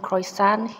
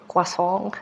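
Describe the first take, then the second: First: It is said in a plain English accent. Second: It is said in a thick French accent.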